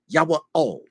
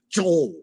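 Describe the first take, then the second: First: The name is split into two separate parts. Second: The name is run together as one syllable. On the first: The speaker calls it right. "It's two words" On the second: The speaker calls it wrong. "J O L E is the way they pronounce it"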